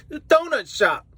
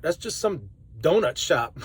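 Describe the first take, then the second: First: Donut shop jumps high in pitch; a delighted, incredulous donut shop; amused disbelief. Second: Said in the usual way. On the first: Real, not acted. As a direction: marvel that it's a donut shop.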